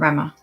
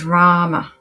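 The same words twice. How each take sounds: First: The A vowel is kept short. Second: The A vowel is held long. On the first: The speaker calls it wrong. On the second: The speaker calls it right. "It's got the long A"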